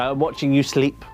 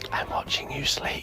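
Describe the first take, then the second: First: It is said in a louder whisper. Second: It is said in a quiet whisper.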